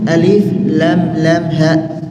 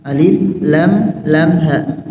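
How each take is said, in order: The two takes are said the same way.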